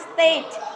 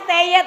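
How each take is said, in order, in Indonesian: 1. Diucapkan satu suku kata, stayd. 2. Diucapkan dua suku kata, stay-id. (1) "Kita mengucapkannya state" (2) "tulisannya stay it memang"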